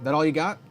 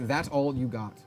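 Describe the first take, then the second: First: It is said as a taunting, rising question. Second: It is said as a flat, plain statement. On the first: It is a challenge posed as a question. The speaker calls it right. "you got to say it like that" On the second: It is just a plain name. The speaker calls it wrong. "You can't really be like"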